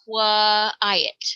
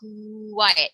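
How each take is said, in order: First: The start is split into an extra qua syllable. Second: The start glides smoothly from a rounded coo sound. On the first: The speaker calls it wrong. "we do not say qua-in, qua-ick, qua-iet" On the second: The speaker calls it right. "think about saying coo"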